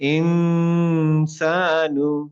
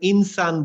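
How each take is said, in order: First: The n is hidden with a nasal hum. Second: The n is pronounced clearly and directly. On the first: The speaker calls it right. "বলবো ইনসানু" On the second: The speaker calls it wrong. "নুনের আমি ডাইরেক্ট বলবো না, ইনসান বলবো না"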